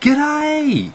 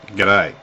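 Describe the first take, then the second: First: It is said in a surprised, delighted tone. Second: It is said in a cool, grudging tone. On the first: The speaker hasn't seen the listener for a while. "someone you haven't seen for a while" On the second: The speaker is not fond of the listener. "I've seen you around. I'm not. I'm not too fond of you, mate"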